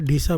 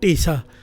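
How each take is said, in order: First: The name starts with a breathy dh sound. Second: The name starts with a plain t sound. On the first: This is how speakers of other languages can say it. "बोल नहीं पाते लोग, इसलिए दास उसको यहाँ पर ढीसा बोल रहा है" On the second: This is the original Punjabi way of saying it. "असल में पंजाबी अक्षर है, इसका नाम है टीसा"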